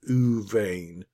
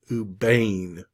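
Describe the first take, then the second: First: The word begins with a V sound. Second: The word begins with a B sound. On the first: The letter follows a vowel sound. "this one is the V sound" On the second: The letter has the dagesh. "this one is the B sound"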